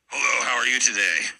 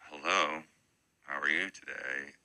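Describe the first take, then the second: First: It is said in an angry way. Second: It is said in a friendly way.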